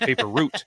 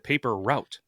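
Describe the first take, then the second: First: The word route rhymes with boot. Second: The word route rhymes with out. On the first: The speaker calls it wrong. "roots are in trees" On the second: The speaker calls it right. "it's route"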